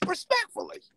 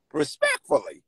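First: Respectfully said much higher in a put-on voice; Respectfully in a comic high character voice; Stumbles voice. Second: Said in the usual way. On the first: Shown as a demonstration. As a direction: do the word Respectfully as Stumbles, pitched way up. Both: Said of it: "In my Stumbles voice".

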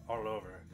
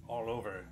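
Both takes have the same delivery.

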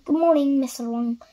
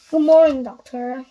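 First: A light cheerful call from the postman. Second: Loud greeting. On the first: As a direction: greet him brightly but lightly. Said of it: "called the postman cheerfully". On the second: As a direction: boom the greeting back at him. Mister Wrong replies to postman. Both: Acted.

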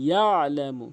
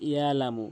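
First: ইয়ালামু with a clear throat ain; ইয়ালামু, ain pressed from the throat; ইয়ালামু with the ain sounded. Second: Said in the usual way. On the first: Shown as a demonstration. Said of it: "বলতে হবে ইয়ালামু". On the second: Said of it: "বলে যে ইয়ালামু".

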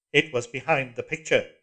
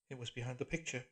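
First: Loud flat echo of her words; cold mechanical repeat; iron voice. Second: Softer, breathy, frightened; breathed. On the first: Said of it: "said the voice". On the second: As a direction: breathe the words out in fear. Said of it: "breathed Julia". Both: A narrator's reading.

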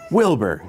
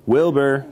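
First: Quick falling exclamation; mild storybook astonishment; gasped surprise. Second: Higher, slightly raised storybook call. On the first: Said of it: "gasped Elmer". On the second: Elephant calls his hidden cousin, higher calling voice. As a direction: call up to someone out of sight. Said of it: "called Elmer". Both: A narrator's reading.

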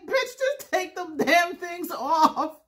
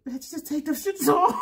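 First: Slow, high quote through tears of laughter; laugh-cry retort. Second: High quote with laughter in it; laughing, exasperated retort. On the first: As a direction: blurt it out while crying with laughter. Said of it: "I'm crying". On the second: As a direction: fling it out half-laughing. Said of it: "I'm laughing so hard". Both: Retold or imitated.

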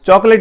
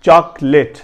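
First: چاکلیٹ with a rounded o, "chok-late"; wrong pronunciation. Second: چاکلیٹ as "chaak-let"; corrected pronunciation. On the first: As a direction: round the first vowel of چاکلیٹ. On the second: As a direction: open "aa" in چاکلیٹ, then "let". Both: Shown as a demonstration. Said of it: "چاکلیٹ نہیں پڑھنی".

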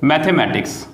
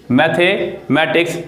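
First: Said in the usual way. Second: मैथमेटिक्स said slowly with a rising end; slow rising teacher's repeat of मैथमेटिक्स. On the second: Shown as a demonstration. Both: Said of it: "जैसे कि".

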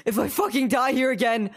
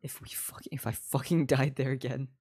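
First: Higher, raised-voice exasperation; escalating frustration. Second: Lower, half-whispered grumble; low frustrated mutter. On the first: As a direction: burst out with exasperated emphasis. Same threat escalated after quiet take. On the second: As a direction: grumble it under your breath. Muttered frustration, repeated louder after. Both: Real, not acted.

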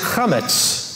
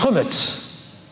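First: "chametz" with a throaty kh and an a vowel; chametz pronunciation. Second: "chumetz" the Ashkenazi way, KHUH-mets; Ashkenazi pronunciation. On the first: Teacher giving the Hebrew word for leavened bread, "chametz" with a throaty kh. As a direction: say "chametz" with a guttural ch, a-vowel form. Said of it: "depending on how you pronounce the vowel". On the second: Teacher showing congregation the Ashkenazi form, "chumetz" as KHUH-mets. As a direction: stress the first syllable of "chumetz", rounder vowel after a throaty kh. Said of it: "Ashkenazi, it's chumetz".

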